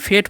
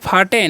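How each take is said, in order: First: It is said as one syllable, fate. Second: It is said as two syllables, fah-tay. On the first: The speaker calls it right. "फेट पढ़ते हैं" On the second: The speaker calls it wrong. "फाटे नहीं"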